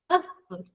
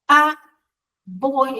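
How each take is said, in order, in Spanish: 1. La palabra 'a' tiene una vocal reducida y débil. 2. La palabra 'a' tiene una vocal plena y fuerte. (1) "Muy débil" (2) "no es a voy"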